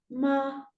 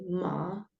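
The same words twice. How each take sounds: First: The pitch stays high and level. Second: The pitch dips down then rises again. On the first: "ese es un tono uno sostenido" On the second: "tono descendente ascendente ... Baja y sube"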